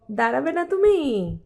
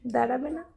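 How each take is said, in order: First: Drawn-out coaxing. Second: Said in the usual way. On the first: Real, not acted. Mum presses toddler to stand, drawn-out coaxing. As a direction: draw out "তুমি" as a loud, coaxing question.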